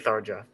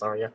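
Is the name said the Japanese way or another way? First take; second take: another way; Japanese. First: The name is said in a non-Japanese way. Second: The name is said in the Japanese way. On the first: "I guess I would say Tharja" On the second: "the Japanese pronunciation is Tharia"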